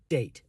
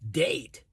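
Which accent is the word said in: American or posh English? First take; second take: posh English; American. First: It is said in a posh English accent. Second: It is said in an American accent. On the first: "in posh English, this is" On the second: "In America, they'd say"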